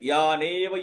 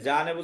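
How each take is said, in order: First: The word begins with a 'y' sound. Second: The word begins with a 'j' sound. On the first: The speaker calls it right. "এখানে উচ্চারণ হবে ইয়ানেব" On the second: The speaker calls it wrong. "জানেব উচ্চারণ না না হয়ে"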